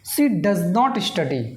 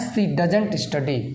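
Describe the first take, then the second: First: It uses the full form does not. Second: It uses the contracted form doesn't.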